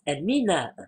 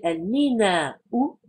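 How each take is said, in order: First: The word ends without the final vowel sound. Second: The word ends with a final vowel sound. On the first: This is how it is actually said. "on ne prononce jamais la dernière vocalisation" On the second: This is the formal pronunciation. "On devrait le prononcer"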